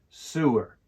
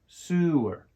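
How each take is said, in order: No difference in how they are said.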